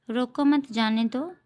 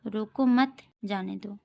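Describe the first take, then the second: First: रोको set off, then मत जाने दो together; pause after रोको. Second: रोको मत together, then जाने दो apart; pause after मत. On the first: Teacher reads comma example to students, pausing after रोको. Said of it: "अल्प विराम चिन्ह का प्रयोग अलग-अलग स्थानों पर". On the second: Teacher reads second comma example, pausing after मत. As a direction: join रोको to मत, break before जाने दो. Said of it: "यहाँ रोको मत के बाद कॉमा है". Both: Shown as a demonstration.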